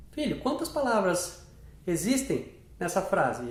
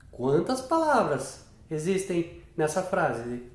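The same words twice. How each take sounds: First: Said in the usual way. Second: "Quantas palavras existem nessa frase?" asked slowly, word by word; slow question. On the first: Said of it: "Você vai falar". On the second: Shown as a demonstration. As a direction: ask it slowly to the child. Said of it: "E aí você pode falar". (pergunta lenta, palavra por palavra)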